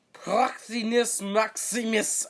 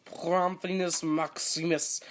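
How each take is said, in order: First: High, loud, drawn-out title; hammed-up booming proclamation, pitched high; grand mock tone. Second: Drawn-out, punched-up title; mock-ceremonial announcement of a title; grand mock tone. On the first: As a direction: proclaim it slowly with overblown pomp. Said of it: "I'm gonna say it in that tone". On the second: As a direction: proclaim it with playful pomp. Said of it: "I'm gonna say it in that tone from now on".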